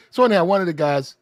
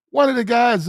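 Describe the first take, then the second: First: Said in the usual way. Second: Blurting the restart over his own stumble. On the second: Shown as a demonstration.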